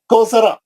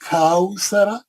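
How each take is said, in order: First: The first vowel is a single flat 'o' sound. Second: The first vowel glides from 'a' to 'u'. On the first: The speaker calls it wrong. "कौसरा नहीं" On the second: The speaker calls it right. "हम क्या पढ़ते"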